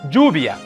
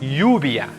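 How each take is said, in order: First: The ll sounds like a soft English j. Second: The ll sounds like English y. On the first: "similar to the soft J as in the English name Jack" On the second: "The double L most often sounds like Y"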